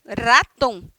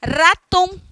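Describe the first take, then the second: First: "raton" said again with a trilled R, ending falling; rolled R, repeated. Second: "Raton" with the R trilled hard and long; rolled R. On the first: Teacher repeats "raton" so students hear the trilled R. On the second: Teacher shows students the trilled R of "Raton". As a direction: roll the R of "Raton" all the way through. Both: Shown as a demonstration. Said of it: "precisa tremer esse R todinho".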